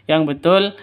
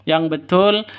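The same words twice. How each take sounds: No difference in how they are said.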